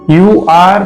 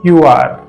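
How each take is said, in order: First: 'You are' is said as two full words. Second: 'You are' is contracted to one syllable.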